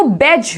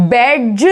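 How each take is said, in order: First: बैज as one syllable, "bej"; silent d demo. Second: बैज with the d sounded, "bed-juh"; wrong pronunciation demo. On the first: Teacher giving the right form, silent d. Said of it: "बोल रहे हैं". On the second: Teacher showing what not to say, mispronounced. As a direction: break बैज into d plus j, lower. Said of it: "नहीं बोलेंगे". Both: Shown as a demonstration.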